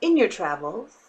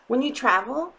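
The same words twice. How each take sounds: First: Lightly put-on voice on in your travels; a hint of a storyteller voice. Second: Said in the usual way. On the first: Shown as a demonstration. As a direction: say in your travels with a little mock flourish. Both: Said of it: "I have to say it with that voice".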